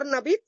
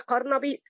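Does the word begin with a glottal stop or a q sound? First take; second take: glottal stop; q sound. First: The word begins with a glottal stop. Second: The word begins with a q sound. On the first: This is the everyday spoken form. "مش هم بيقولوا ارنبيط؟" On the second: This is the standard Arabic form. "لا، هي قرنبيط"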